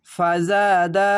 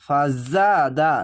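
First: ফাজাদা very slow with a buzzing জা. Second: ফাজাদা drawn very slow, জা buzzing. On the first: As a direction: make the জা in ফাজাদা buzz. (ফাজাদা, জা ঝিনঝিন করে) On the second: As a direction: buzz the জা in ফাজাদা. (ঝিনঝিন জা দিয়ে ফাজাদা) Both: Shown as a demonstration. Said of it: "এই জা উচ্চারণটি ঝিনঝিন করে".

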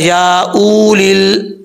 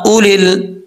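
First: उलिल with the vowel stretched out long, wrongly; wrong lengthened reading. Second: उलिल said short and crisp, the व not pronounced; correct short reading. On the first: Teacher demonstrates to students the wrong long उलिल. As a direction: drag out the उ of उलिल, slowly. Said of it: "कोई इसको लंबा करके पढ़ता है". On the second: Teacher shows students the correct short उलिल. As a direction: clip उलिल short, no long vowel. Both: Shown as a demonstration.

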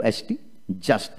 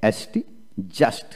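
No difference in how they are said.

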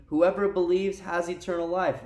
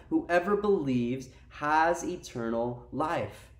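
First: Said in the usual way. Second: Slow, deliberate delivery, word by word; slow emphatic repeat. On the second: Real, not acted. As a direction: let each word of the verse land slowly.

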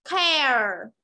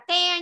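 First: "Care" drawn out as KEH-er, falling; "Care" with both vowel sounds clear; full diphthong. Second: "care" cut to a bare "keh"; "care" with only the e vowel; wrong pronunciation. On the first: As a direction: let "Care" glide from e into schwa. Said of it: "mà là có cả âm ờ". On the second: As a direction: say "care" without its closing schwa. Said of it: "Không phải là care nhá". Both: Shown as a demonstration.

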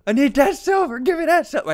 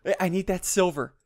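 First: Higher, hammed-up grabby voice; mock greedy voice. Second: Said in the usual way. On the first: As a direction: whine for the silver like a greedy goblin.

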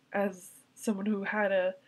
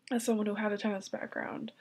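First: Said in the usual way. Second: Tearful, breaking into a whisper; crying. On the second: Real, not acted. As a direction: barely hold back real tears. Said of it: "I can't stop crying".

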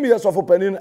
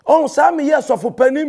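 First: Said in the usual way. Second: Saa drawn out slow and high with a rise; stress on saa. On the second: Shown as a demonstration. Mocking a pastor's boast, saa stretched high. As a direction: lean on saa, slow and rising.

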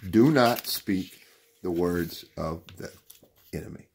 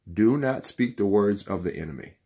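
First: Deliberate warning, word by word. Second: Said in the usual way. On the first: Real, not acted. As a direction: let "enemy" drop away after a pause. Slow repeat for emphasis.

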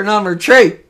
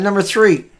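First: "three" said as "tray", with a hard t for th; dialect pronunciation. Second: Said in the usual way. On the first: Real, not acted. Host reading a headline in community dialect, "three" said as "tray". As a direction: say "three" with a plain t, like "trait" without its last t. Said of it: "that's my accent". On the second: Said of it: "I'm just kidding".

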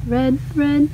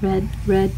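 No difference in how they are said.

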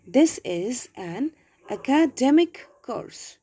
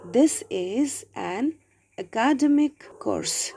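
First: Slow reading with "academic" stressed on DEM. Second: "academic" stressed on the second syllable, a-KA-demic; misplaced word stress. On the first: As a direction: slowly say "academic" as aca-DEM-ik. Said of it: "We have to give a stress". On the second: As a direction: slowly read "academic" as uh-KAH-duh-mik. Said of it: "the error is in my pronunciation". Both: Shown as a demonstration.

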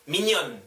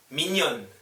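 Both takes have the same delivery.

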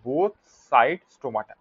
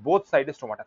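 First: "both side stomata" slowly, word by word; slow emphatic repeat. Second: Said in the usual way. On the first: Shown as a demonstration. Teacher repeating a key point to students, "both side stomata" slow and spaced.

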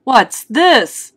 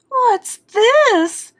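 First: Lightly voiced puzzled father, a bit higher and louder; father's question. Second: Very high mother's voice; mother's startled question. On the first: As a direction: ask it as the father, lightly raised. Father asks about baby's hair. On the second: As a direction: ask it high, as an alarmed mother. Mother asks about baby's tooth. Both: A narrator's reading.

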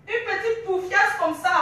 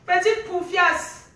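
First: Said in the usual way. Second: Drawn out slowly, stress on petite; slow mocking insult. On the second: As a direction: spell out each syllable of Petite poufiasse with contempt. Rant, insult repeated slowly. (insulte lente et appuyée)

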